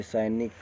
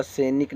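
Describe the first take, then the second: First: सैनिक said as "sainik", with an ai; "sainik" with a full ai in सैनिक; correct diphthong. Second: सैनिक said as "senik", with a plain e; wrong first vowel. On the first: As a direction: open the first vowel of सैनिक to ai. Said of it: "ये सही है". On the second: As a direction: flatten the ai of सैनिक to e. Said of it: "न बोला जाता है". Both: Shown as a demonstration.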